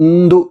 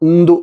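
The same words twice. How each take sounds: Both takes have the same delivery.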